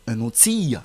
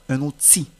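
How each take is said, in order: First: The final L is pronounced. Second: The final L is silent. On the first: The speaker calls it wrong. "On ne va pas dire un outil" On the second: The speaker calls it right. "la lettre L ne se prononce pas"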